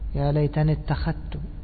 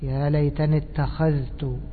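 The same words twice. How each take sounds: First: The dh sound merges into the following t. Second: The dh sound is pronounced clearly before the t. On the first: This follows the other reading traditions. "وأما الباقون يقولون إيش؟" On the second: This follows one reading tradition. "طبعا هذه قراءة حفص"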